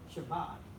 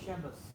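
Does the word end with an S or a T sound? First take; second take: T; S. First: The word ends with a 't' sound. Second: The word ends with an 's' sound. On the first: "they don't say sh- Shabbat" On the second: "The T at the end is an S"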